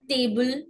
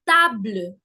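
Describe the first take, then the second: First: The a is not an open 'ah' sound. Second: The a is an open 'ah' vowel. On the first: The speaker calls it wrong. "never will it be" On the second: The speaker calls it right. "the sound is A"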